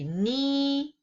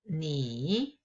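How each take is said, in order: First: The pitch stays high and level. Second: The pitch dips low and then rises.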